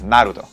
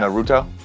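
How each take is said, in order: First: The stress is on the first syllable. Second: The stress is on the second syllable. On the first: This is how it is said in Japanese. "in Japanese, for the most part, you put the emphasis on the first syllable" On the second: This is how English speakers say it. "you would put it on that mi- the second to last syllable"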